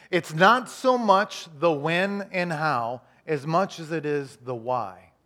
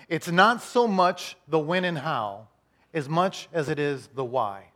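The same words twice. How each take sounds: First: Very slow, stretched, stressing so; even slower repeat. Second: Slow and weighty, each word set apart; slow, deliberate. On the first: Pastor repeating key line, slower still. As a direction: drag it out so it sinks in. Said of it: "Let me say it one more time". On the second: Pastor to congregation, slow and deliberate. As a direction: spell it out slowly for note-takers. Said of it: "Write this down". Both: Shown as a demonstration.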